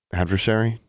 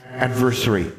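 First: Said in the usual way. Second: Put-on high childlike questioning; a child testing a big word; ghost girl asking. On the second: Ghost girl checking the word with Alexandra, high child voice.

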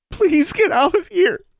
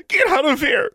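First: Very high, loud, slow crying plea; girl begs her to go, crying. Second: High, loud screamed order; girl screams at the intruder. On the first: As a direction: beg through tears. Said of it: "the girl repeated, crying now". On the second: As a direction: scream it at her. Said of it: "the fat teenage girl screamed". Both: A narrator's reading.

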